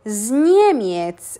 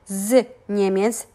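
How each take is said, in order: First: The z flows straight into the next word. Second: The z is said apart from the next word. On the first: The speaker calls it right. "We kind of join it together and we say z Niemiec" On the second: The speaker calls it wrong. "we don't really pronounce it z Niemiec"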